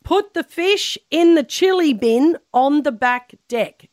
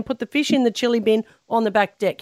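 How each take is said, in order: First: Slow, higher, word-by-word dictation; measured, raised-pitch prompt. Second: Said in the usual way. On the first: Shown as a demonstration. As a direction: spell it out slowly for someone to repeat. Dictating a sentence to repeat.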